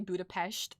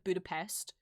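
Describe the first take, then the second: First: It is said with a Hungarian-style pronunciation. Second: It is said with an English-style pronunciation. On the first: "when I say Budapest" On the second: "instead of Budapest"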